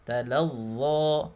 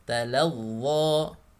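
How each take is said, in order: No difference in how they are said.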